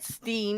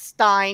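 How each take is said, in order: First: The last syllable is said like 'steen'. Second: The last syllable is said like 'stine'. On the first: The speaker calls it wrong. "I said Steen. I mispronounced it" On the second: The speaker calls it right. "It's Stein because it's E I N"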